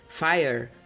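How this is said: It is said with an American accent.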